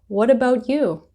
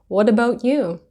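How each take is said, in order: No difference in how they are said.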